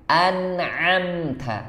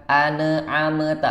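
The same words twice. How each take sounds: First: Slow An'amta with a clean ain; correct an'amta. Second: An'amta broken with extra vowels, an-a-amata; wrong an'amta. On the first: Teacher showing the right An'amta. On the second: Teacher imitating a wrong an'amta. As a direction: chop an'amta with a hamzah break. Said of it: "keliru di huruf ain dan hamzahnya". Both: Shown as a demonstration.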